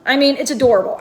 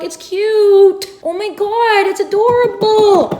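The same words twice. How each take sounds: First: Said in the usual way. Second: Higher, delighted gush over a cute nook; rising squeal of delight. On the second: Real, not acted. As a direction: swoon over how adorable it is. Gushing over the little nook.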